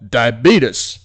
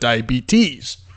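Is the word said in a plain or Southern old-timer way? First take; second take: Southern; plain. First: It is said in an old Southern way. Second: It is said in a plain, standard way. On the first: "they like to pronounce a disease called" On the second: "instead of"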